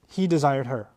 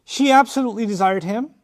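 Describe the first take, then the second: First: "he desired her" said low, falling away; no stress. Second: ABSOLUTELY stressed, rising at "him"; emphatic stress. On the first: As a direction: drop "he desired her" down without emphasis. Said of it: "much stress placed on his feelings at all". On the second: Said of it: "huge amount of stress placed on her feelings". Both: Shown as a demonstration.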